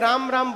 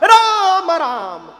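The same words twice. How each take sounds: First: It is said quietly, under the breath. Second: It is said loudly, with force.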